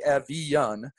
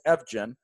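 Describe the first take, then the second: First: The middle consonant is a soft y sound. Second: The middle consonant is a hard j sound. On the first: This is the actual Scandinavian pronunciation. The speaker calls it right. "it is actually" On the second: This is the common pronunciation. The speaker calls it wrong. "everybody says"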